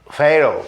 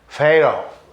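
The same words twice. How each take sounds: First: The word is said with a d-like English t. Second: The same.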